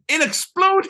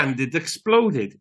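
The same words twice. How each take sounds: First: Squeaky excited. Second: Said in the usual way. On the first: Real, not acted. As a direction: blurt it out delighted. Same words, flat then excited.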